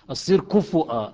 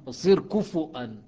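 First: كفؤا said loudly with a clear damma on the fa; loud teacher correction of كفؤا; stressed correction. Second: كفؤا louder, with a damma on the fa and a hamza; teacher repeating the correct كفؤا; stressed correction. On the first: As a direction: correct the class firmly: كفؤا. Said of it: "خلوا لها ضمه". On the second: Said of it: "سووها ضمه". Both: Shown as a demonstration.

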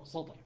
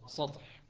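First: سطح with the S made emphatic, quietly; correct pronunciation. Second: سطح breathed with a plain S, unvoiced; hard pronunciation. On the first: Teacher giving the form we say. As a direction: say سطح with a heavy S. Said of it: "فإحنا ماذا نقول؟". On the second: Teacher showing the awkward form to students. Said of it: "فشو تقول؟". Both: Shown as a demonstration.

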